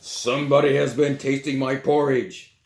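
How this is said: It is said in a great big voice.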